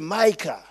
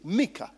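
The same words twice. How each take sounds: First: The name is said the English way. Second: The name is said the Luganda way. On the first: This form copies how Europeans say it. "it is the Bazungus who say Mika" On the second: This is the original form of the name. "the real pronunciation is Mika"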